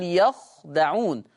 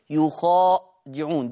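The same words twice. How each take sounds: First: يخدعون said slowly with a short open ya and a silent kha, no alif; يخدعون recited slowly as yakhdaʿūn in the Hafs way; Hafs reading. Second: يخادعون said slowly with a u on ya and a long alif after kha; يخادعون recited slowly as yukhādiʿūn in the Warsh way; Warsh reading. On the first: Teacher giving the Hafs reading, slow careful recitation. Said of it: "يبقى حفص بيقول". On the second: Teacher contrasting Warsh with Hafs, slow careful recitation. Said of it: "ورش بيقول". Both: Shown as a demonstration.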